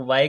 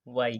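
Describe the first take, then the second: First: وائی ending in an open "ae", like "vaa-ay"; وائی with a final "ay" glide; variant pronunciation. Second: وائی ending in "ee", like "vaa-ee"; وائی with a final "ee"; alternative pronunciation. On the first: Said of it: "کچھ لوگ وائی کہتے ہیں". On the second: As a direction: say وائی as "vaa-ee", closing on an i sound. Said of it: "کچھ وائی کہتے ہیں". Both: Shown as a demonstration.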